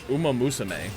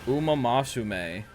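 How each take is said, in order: First: The third syllable is said as 'mu'. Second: The third syllable is said as 'ma'. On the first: The speaker calls it right. "Is that how I'm supposed to say it?" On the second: The speaker calls it wrong. "I was saying Masame"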